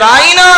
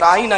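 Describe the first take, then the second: First: The word is said with a stretched, drawn-out vowel. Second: The word is said with normal short vowels. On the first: A mocking insult meaning shepherd of our sheep. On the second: A respectful request to go easy and explain simply.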